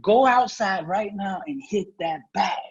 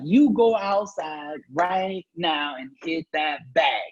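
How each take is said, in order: First: Slow, firm commanding mother; stern order. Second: Very slow, every word spelled out; insistent order. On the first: Lightly voiced mother ordering him slowly. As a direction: mom orders him out to the bag. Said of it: "she yelled at me". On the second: Mother on the phone slowly insisting he hit the bag. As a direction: drag out each word like a stern mom. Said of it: "she kept persisting". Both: Retold or imitated.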